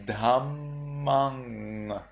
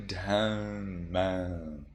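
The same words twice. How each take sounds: First: Dhammang slow with a full ng; Sri Lankan pronunciation. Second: Dhammang slow, softer, nasal end; Burmese pronunciation. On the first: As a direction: draw out dhammang with ng. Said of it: "In Sri Lanka, you would say". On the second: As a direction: dhammang with faded ending. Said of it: "In Myanmar, you say". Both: Shown as a demonstration.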